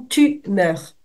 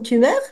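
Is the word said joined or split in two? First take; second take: split; joined. First: The two syllables are cut apart with a break. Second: The two syllables are joined smoothly together. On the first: It says that you are dying. The speaker calls it wrong. "suivant la manière dont je prononce tumeur ou tu meurs" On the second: It names a tumor. The speaker calls it right. "ne coupez pas les mots"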